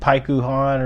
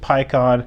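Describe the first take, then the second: First: The name is said in three syllables. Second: The name is said in two syllables. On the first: This is the original Japanese version of the name. "Japanese is like Paikuhan" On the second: This is the English dub's version of the name. "I do pronounce it PyCon"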